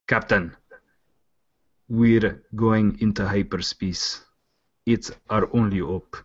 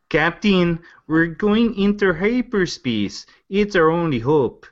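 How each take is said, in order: First: Slow, halting attempt at South African; badly done South African accent with long gaps. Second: High, drawn-out attempt at a Minnesota accent; exaggerated Minnesota lilt, slow and high; Fargo accent. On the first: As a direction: try a shaky-grade South African accent, measured. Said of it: "Is, is that South African?". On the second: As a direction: do a wobbly Fargo accent, pitched well up. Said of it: "my version of what the guys from Fargo talk like".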